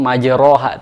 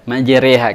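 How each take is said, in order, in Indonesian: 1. Vokal setelah r berbunyi 'o'. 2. Vokal setelah r condong ke 'e'. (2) "karena ada titik hitam"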